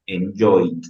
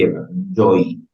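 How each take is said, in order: First: Enjoyed, ending crisply on a sounded D; enjoyed with a clear final D. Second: Said in the usual way. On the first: Shown as a demonstration. Teacher models the past tense for students, sounding the final D. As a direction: make the D at the end of enjoyed heard. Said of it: "Que se sienta esa D". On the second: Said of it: "Pronunciación en tiempo presente".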